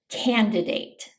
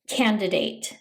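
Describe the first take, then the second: First: The first D sound is pronounced. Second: The same.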